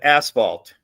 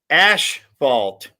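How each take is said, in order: First: The first syllable sounds like 'ass'. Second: The first syllable sounds like 'ash'. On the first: This is the usual way of saying it. "instead of asphalt" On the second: This is the local way of saying it. "Native Rhode Islanders say asphalt instead"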